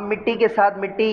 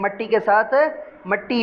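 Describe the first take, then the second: First: The word begins with an 'i' vowel: mitti. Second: The word begins with an 'a' vowel: matti. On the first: "मिट्टी और मट्टी दोनों से दोनों तरह से पढ़ा जाता है" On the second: "बेहतर यही है कि आप मट्टी पढ़ें"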